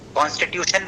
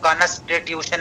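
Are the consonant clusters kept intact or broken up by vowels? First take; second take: intact; broken up. First: The consonant clusters are pronounced intact, without extra vowels. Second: Extra vowels break up the consonant clusters. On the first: "कॉन्स्टिट्यूशन बोलने के बजाय" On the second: "ऐसे बोल देंगे"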